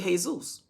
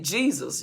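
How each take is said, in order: First: It is said with an Eastern pronunciation. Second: It is said with the speaker's own local pronunciation. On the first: "you go to the Eastern, they say Jesus" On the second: "like we say Jesus"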